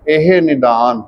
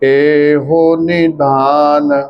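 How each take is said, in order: First: The first word ends without an 'o' vowel. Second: The first word ends with an 'o' vowel. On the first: The speaker calls it right. "ਉੱਥੇ ਇਹੋ ਸ਼ਬਦ ਨਹੀਂ ਹੈ" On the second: The speaker calls it wrong. "ਜਦੋਂ ਇਹ last ਵਿੱਚ ਗਾਉਂਦੀਆਂ ਨੇ"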